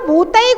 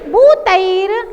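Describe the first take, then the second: First: The word ends on a vowel, with no r. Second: The word ends with a clear r sound. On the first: The speaker calls it wrong. "बहुत सारे लोग इसके रा का उच्चारण नहीं कर पाते" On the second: The speaker calls it right. "उनको पता नहीं है कि रा कहाँ पढ़ना है"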